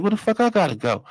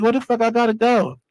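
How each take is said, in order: First: Said in the usual way. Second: Higher, baffled demand; can't believe they're moving him; incredulous. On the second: Retold or imitated. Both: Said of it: "I'm like".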